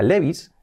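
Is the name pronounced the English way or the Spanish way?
Spanish. The name is pronounced with Spanish sounds. The speaker calls it wrong. "no se pronuncia Levi's"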